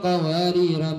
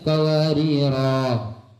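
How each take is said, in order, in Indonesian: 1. Kata ini berakhir dengan vokal pendek. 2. Kata ini berakhir dengan vokal panjang. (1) "kalau disambung" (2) "Yang mun ambu sampean"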